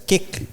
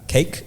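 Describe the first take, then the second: First: The vowel is a short 'i' sound. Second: The vowel is a long 'ay' sound.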